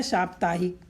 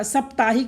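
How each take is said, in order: First: साप्ताहिक with a long first vowel, 'saap-taa-hik'; correct pronunciation. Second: साप्ताहिक with a short first vowel, 'sap-taa-hik'; wrong pronunciation. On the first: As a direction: open साप्ताहिक on a long 'saa'. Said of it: "अशुद्ध है साप्ताहिक". (साप्ताहिक का शुद्ध उच्चारण, लंबे 'सा' से) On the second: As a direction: shorten the opening of साप्ताहिक to 'sap'. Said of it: "अशुद्ध है". (साप्ताहिक का गलत उच्चारण, 'सप्ताहिक') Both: Shown as a demonstration.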